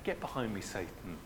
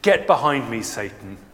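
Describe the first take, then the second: First: The phrase is said lightly, in a joking tone. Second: The phrase is said forcefully, as a stern rebuke. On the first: The speaker is only teasing. "But you say it in a sort of a joking way" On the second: The speaker means it seriously. "I think his rebuke would have been quite powerful"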